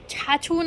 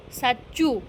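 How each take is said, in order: First: "છાછું" with ch sounds in place of s; baby mispronunciation. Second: "સાચું" with a clear s at the start; correct pronunciation. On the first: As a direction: say "છાછું" the way the toddler does, ch-ch. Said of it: "છાછું નહીં". (બાળકનો ખોટો ઉચ્ચાર "છાછું") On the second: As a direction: model "સાચું" slowly and clearly for the child. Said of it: "એમ બોલ". (સાચો ઉચ્ચાર "સાચું") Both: Shown as a demonstration.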